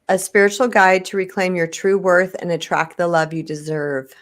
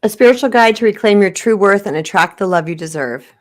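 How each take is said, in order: First: It is said at a slower pace. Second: It is said at a normal, quicker pace.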